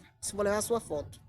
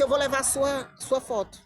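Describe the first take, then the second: First: Said in the usual way. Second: Mildly angry, slightly raised pitch; a touch of anger, firmly declared; retold anger. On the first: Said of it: "Com raiva". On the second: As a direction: re-enact an indignant announcement. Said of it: "com raiva".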